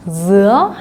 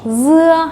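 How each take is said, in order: First: The pitch rises through the word. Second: The pitch stays level throughout. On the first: It means pineapple. "올라가고" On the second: It means melon. "평성에다가"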